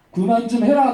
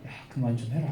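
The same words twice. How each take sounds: First: Full-voiced order to stop; firm rebuke. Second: Low, soft, fed-up grumble; weary plea. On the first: Paul finally tells the pestering girl to stop, firm rebuke. Paul fed up, second firmer take. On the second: Retold or imitated. Paul to the girl who keeps pestering him, weary plea. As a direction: say it under your breath, low and worn out.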